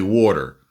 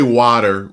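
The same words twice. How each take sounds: First: Jersey "water", first vowel as aw; "wawter" with a Jersey accent. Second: Said in the usual way. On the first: Shown as a demonstration. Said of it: "we say water". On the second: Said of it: "we don't say water".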